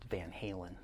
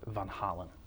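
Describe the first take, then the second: First: The name is pronounced the American way. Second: The name is pronounced the Dutch way. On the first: "from America, it's just" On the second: "in where the the name originates"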